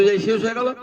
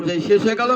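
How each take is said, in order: Both takes have the same delivery.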